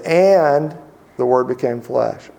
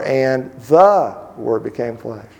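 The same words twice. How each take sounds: First: First word "And" punched, then settle; stress on And. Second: Slow reading, weight on "the"; slow, deliberate, leaning on "the"; stress on the. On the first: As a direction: lean into the opening "And". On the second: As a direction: dwell on "the" before Word. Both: Shown as a demonstration. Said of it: "put the emphasis on a different word every day".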